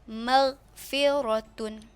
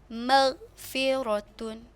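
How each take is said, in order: The two takes are said the same way.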